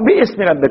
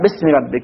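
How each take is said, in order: First: A glottal stop and vowel are pronounced before 'sm'. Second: The vowel and glottal stop before 'sm' are dropped. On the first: The speaker calls it wrong. "مو باسم ربك" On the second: The speaker calls it right. "اقرأ باسم ربك"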